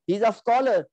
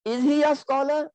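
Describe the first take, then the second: First: "he's a scholar" falling at the end; statement. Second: "is he a scholar" pitched high throughout; question. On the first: Teacher translating the example, "he's a scholar" as a falling statement. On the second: Teacher translating the question form, high-pitched "is he a scholar". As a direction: ask "is he a scholar" on a high tune. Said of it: "change your jumlatul ismiya into a questioning". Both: Shown as a demonstration.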